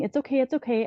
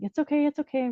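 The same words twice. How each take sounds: First: Retold soothing, a bit higher, gently repeated; soothing reassurance. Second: Put-on higher, soothing coo, repeated like to a baby; mother to her limp newborn, high soothing coo; soothing reassurance. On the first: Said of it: "so I just kept saying". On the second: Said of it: "I'm like".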